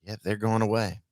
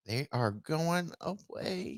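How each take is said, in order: First: Said in the usual way. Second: High, soft and drawn-out mock lament; softly overplayed, slow and lilting; mock-dramatic. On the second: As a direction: stretch each word slowly, hammed-up and high. Theatrical mocking repeat of the line.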